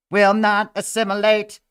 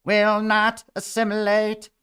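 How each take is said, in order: First: High, loud robot chant. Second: High, slow robot chant. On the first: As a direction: declare it like a machine. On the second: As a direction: drag it out like a machine. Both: Pretend. Robot voice repeated.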